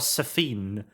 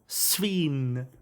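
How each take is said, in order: First: The name is said with two syllables. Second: The name is said with one syllable. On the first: It is a deliberate joke pronunciation. The speaker calls it wrong. "I want to pronounce it Safine because that's funny" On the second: It is the actual pronunciation. The speaker calls it right. "I know it's Sveen"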